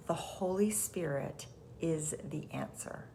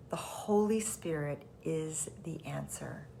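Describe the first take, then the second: First: Said in the usual way. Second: Whisper. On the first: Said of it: "A Course in Miracles says". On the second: Shown as a demonstration. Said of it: "repeated softly as a whisper".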